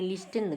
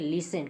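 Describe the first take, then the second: First: The t sound is pronounced in the middle. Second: The t sound is silent in the middle. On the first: The speaker calls it wrong. "गलत है आपका" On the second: The speaker calls it right. "वहाँ पे टी silent हो जाता"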